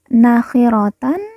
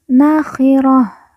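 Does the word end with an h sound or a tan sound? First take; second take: tan; h. First: The word ends with a full -tan syllable. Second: The word ends with a soft h sound.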